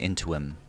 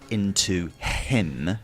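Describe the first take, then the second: First: A w sound links into and him. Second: No w sound links into and him. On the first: "we would put a W. So we'd say into him" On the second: "instead of saying into him"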